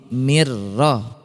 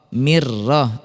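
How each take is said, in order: The two takes are said the same way.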